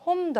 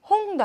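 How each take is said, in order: First: The word ends in a clear m sound. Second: The word ends in a clear ng sound. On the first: "홈도 아니고" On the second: "홍도 아니고"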